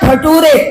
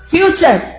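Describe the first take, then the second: First: The middle consonant is a plain 't' sound. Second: The middle consonant is a 'ch' sound. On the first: The speaker calls it wrong. "फ्यूचर को उसने पढ़ दिया फटूरे" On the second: The speaker calls it right. "क्या हुआ? फ्यूचर।"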